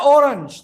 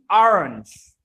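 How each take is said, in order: First: It begins with a rounded 'oh' vowel. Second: It begins with an open 'ah' vowel. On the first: The speaker calls it wrong. "Nggak ada orange" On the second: The speaker calls it right. "O tetap suaranya A"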